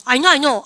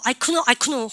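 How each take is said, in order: First: Said in the usual way. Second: "know" said as kuh-no; K sounded in know. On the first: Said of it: "K 발음 묵으면". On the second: Shown as a demonstration. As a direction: put an audible K before the N in "know". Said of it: "K 발음 다 묵으면".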